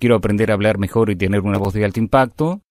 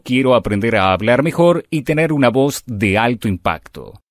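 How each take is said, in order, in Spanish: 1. Se dice de forma plana, con poca variación de tono. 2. Se dice de forma animada, con palabras acentuadas y curvas de tono.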